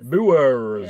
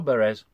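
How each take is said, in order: First: The vowel sounds like the one in 'boor'. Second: The vowel sounds like the one in 'burr'. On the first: The speaker calls it right. "they actually pronounce it Boers" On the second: The speaker calls it wrong. "It's not Burs or Beres"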